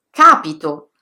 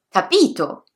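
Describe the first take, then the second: First: The stress is on the first syllable. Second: The stress is on the second syllable. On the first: "sulla terzultima" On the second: "sulla penultima"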